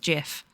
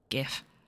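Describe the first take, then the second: First: It starts with a soft J sound. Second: It starts with a hard G sound. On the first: The G stands for generic. "the G stands for generic" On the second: The G stands for graphic. "if it was graphic, it'd be GIF"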